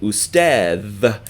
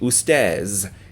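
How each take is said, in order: First: It is said with a standard Arabic 'dh' sound. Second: It is said with a colloquial 'z' sound.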